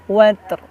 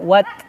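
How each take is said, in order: First: The word ends with an audible r sound. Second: The word ends on t with no r. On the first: The speaker calls it right. "Jadi ro-nya terasa" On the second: The speaker calls it wrong. "jangan wat, bukan ya"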